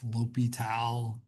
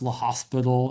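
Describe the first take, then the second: First: It is said lo-pee-tal, with no s sound. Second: It is said like the word hospital, with s. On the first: The speaker calls it right. "It's L'Hopital" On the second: The speaker calls it wrong. "it's not pronounced La Hospital"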